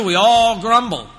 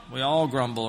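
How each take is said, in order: First: ALL stretched high and loud; slow, loud, high stress on "all"; emphatic admission. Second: Said in the usual way. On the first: Real, not acted. Preacher drives home a shared fault.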